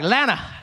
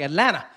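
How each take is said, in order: First: The word shrinks to two short syllables. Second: The t sounds fade and are nearly dropped. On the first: The speaker has fully adopted the local way of talking. "You just try and shrink all the words" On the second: The speaker has started to sound like a local. "The tea was gone. The tea started fading away"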